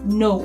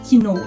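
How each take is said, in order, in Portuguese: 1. A palavra começa diretamente com o som de N. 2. Um som de K é pronunciado antes do N. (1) "a gente usa o know" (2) "a gente não diz que know"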